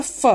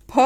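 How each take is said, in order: First: फ as English f; dotted f. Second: फ as an aspirated p, both lips meeting; plain ph. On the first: Teacher contrasts dotted letter, फ as f. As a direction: upper teeth on lower lip for फ. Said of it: "ऊपर के दांत और नीचे के होंठ". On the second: Teacher contrasts undotted letter, फ as aspirated p. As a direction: close both lips and puff out फ. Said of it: "दोनों होंठ आपके मिल जाते हैं". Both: Shown as a demonstration.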